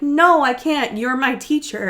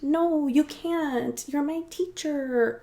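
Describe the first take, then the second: First: It is said as a plain refusal. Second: It is said in a teasing, seductive way.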